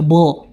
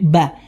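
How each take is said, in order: First: The vowel sounds dark, like 'o'. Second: The vowel sounds open, like 'a'. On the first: The speaker calls it wrong. "jangan sampai dibaca bo" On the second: The speaker calls it right. "tapi ba"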